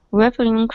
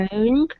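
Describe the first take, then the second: First: "referring" stressed on the first syllable; learner's slip, "referring" starting like "reference"; mispronounced referring. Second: "referring" stressed on the second syllable; corrected referring. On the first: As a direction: say "referring" as REF-er-ing. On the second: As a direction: say "referring" as ri-FER-ing. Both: Real, not acted.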